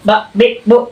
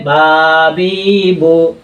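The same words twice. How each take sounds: First: বা, বি, বো each cut short with a shove; wrong jerky push. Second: বা, বি, বো with each vowel stretched long; wrong dragged vowels. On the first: Teacher showing the faulty pushed reading, বা, বি, বো jerked out short. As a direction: jolt out বা, বি, বো as abrupt syllables. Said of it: "অনেকে এভাবে পড়ে". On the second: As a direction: drag out বা, বি, বো like long-vowel letters. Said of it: "আবার টেনে পড়লে". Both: Shown as a demonstration.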